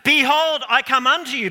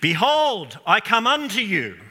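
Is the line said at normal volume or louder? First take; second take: louder; normal. First: It is said much louder than before. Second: It is said at a dramatic but normal volume.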